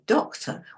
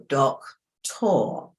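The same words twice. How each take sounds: First: The final vowel is swallowed into a weak schwa. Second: The final vowel is spoken fully and clearly. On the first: The speaker calls it right. "We say doctor. We swallow the end" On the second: The speaker calls it wrong. "if you sound this out, you go doctor"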